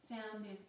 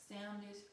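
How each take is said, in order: The two takes are said the same way.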